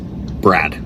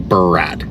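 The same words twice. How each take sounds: First: The B and R run together without gap. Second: There is a short gap between B and R. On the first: "Try to say it without the space" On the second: "To give myself time between the B and the R"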